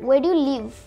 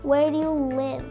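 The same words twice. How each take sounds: First: The final v is pressed hard and strong. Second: The final v is said lightly and softly. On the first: The speaker calls it wrong. "ভিটাতে অনেক বেশি pressure দিয়ে" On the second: The speaker calls it right. "একটু কম pressure দিয়ে"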